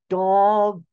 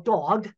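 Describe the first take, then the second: First: It is said slowly, each sound drawn out. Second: It is said at normal speed.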